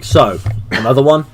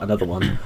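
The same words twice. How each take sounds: First: "another one" lifted at the end as a question; a casual proposal, rising on "one". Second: "Another one" low and soft, as a reply; understated, low agreement on "Another one"; answering. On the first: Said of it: "and I'll be like". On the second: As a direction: echo "Another one" back quietly, without the questioning rise. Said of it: "And she'll be like". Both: Retold or imitated.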